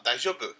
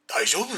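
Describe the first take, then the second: First: Said in the usual way. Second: 大丈夫？ with a high rising pitch; rising intonation. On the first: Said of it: "そう、普通は". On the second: Shown as a demonstration. Showing how intonation changes the meaning, sharply rising. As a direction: ask 大丈夫？ with a sharp rise. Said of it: "イントネーション変わるでしょ？".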